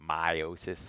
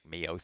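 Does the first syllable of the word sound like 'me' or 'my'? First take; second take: my; me. First: The first syllable sounds like 'my'. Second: The first syllable sounds like 'me'. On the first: The speaker calls it right. "I like to like m- emphasize it by saying meiosis and mitosis" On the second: The speaker calls it wrong. "When I go from my to me, it sounds weird. Like"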